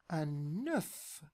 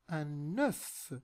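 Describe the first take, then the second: The two takes are said the same way.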